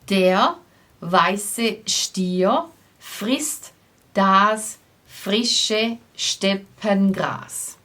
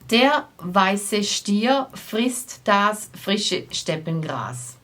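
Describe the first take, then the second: First: It is said at a normal, slower pace. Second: It is said a bit more quickly.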